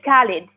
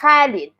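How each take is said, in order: First: It begins with a plain hard k sound. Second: It begins with a raspy, throaty kh sound. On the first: The speaker calls it wrong. "it's not K. ... That's not like Khalid" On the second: The speaker calls it right. "That's Khalid. ... same as like ha, but have a vibration"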